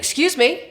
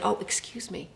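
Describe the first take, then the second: First: It sounds angry and annoyed. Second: It sounds apologetic and sorry.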